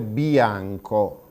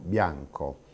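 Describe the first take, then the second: First: The vowels are split into two full syllables. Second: The vowels glide together as one diphthong. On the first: The speaker calls it wrong. "due vocali piene" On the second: The speaker calls it right. "non bianco"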